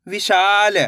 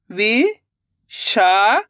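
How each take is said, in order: First: Said in the usual way. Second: Very slow, stretched syllables, rising at the end; sounding out syllables. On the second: Shown as a demonstration. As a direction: sound it out slowly, letter by letter. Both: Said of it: "एक एक अक्षर का उच्चारण करके".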